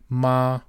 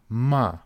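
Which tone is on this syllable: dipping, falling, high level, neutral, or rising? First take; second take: high level; falling. First: The pitch stays high and level. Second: The pitch falls sharply from high. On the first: It means mother. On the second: It means to scold. "to scold"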